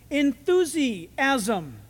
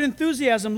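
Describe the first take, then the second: First: Enthusiasm drawn out very slowly in separate parts; syllable by syllable. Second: Said in the usual way. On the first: Shown as a demonstration. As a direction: break enthusiasm apart, stretching each part. Breaking word down to Greek root.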